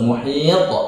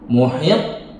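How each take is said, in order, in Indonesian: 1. Pantulan t terakhir langsung terdengar tanpa jeda. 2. Ada jeda sebelum pantulan t terakhir. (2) "Misalkan gini, ... nggak boleh"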